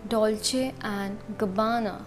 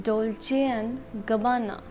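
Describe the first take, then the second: No difference in how they are said.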